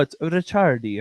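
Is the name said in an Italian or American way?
Italian. The name is said the Italian way.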